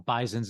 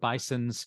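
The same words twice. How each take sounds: First: It is said with a z sound, Western New York style. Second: It is said with an s sound, standard style.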